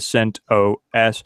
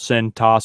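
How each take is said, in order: First: The word is said with one more syllable. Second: The word is said with one fewer syllable.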